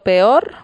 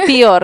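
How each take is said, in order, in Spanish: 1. La primera vocal suena como e. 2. La primera vocal suena como i. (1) "Por ejemplo, peor" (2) "decir pior"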